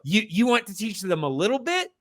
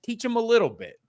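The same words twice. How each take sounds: First: "bit" rising into a question, quick and higher; rhetorical question. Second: "little" high, then falling away on "bit"; conceding answer. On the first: Host arguing with the movie's makers, rising "little bit?". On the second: Host granting the movie's makers their point, falling "little bit". Answers own rhetorical question. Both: Acted.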